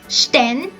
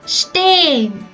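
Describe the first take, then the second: First: The E is short and clipped. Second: The E is long and the H silent. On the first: The speaker calls it wrong. "also not like sten" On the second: The speaker calls it right. "with a long E and without the letter H"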